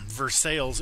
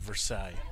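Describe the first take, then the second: First: It is pronounced the local, Americanized way. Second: It is pronounced the French way. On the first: This is how the town's residents say it. "is how they pronounced it growing up too" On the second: This is the original French name's pronunciation. "not Versailles"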